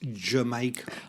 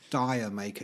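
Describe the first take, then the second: First: It sounds like the word Jamaica. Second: It sounds like the words dire maker. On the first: The speaker calls it right. "it's Jamaica" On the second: The speaker calls it wrong. "it's not pronounced Dire Maker"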